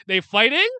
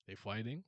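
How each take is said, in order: First: Loud, high, stunned question; can't believe they're actually fighting; high rising disbelief; shocked disbelief. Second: Softer, lower, sheepish question; low, subdued disbelief; quiet rueful repeat. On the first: Disbelief the characters start fighting. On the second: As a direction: mutter it as a self-mocking callback. Quiet callback to earlier shock. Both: Real, not acted.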